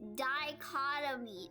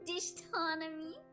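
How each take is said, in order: First: The word is said with a 'kot' middle. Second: The word is said with a 'ston' middle. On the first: The speaker calls it right. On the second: The speaker calls it wrong.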